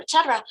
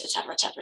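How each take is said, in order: First: "cetera" punched higher and louder, falling; emphatic et cetera. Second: Breathy murmured et cetera; trailing off softly. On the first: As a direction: land hard on "cetera". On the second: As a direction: let et cetera fade under breath. Trailing list, then final emphasis. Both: Real, not acted.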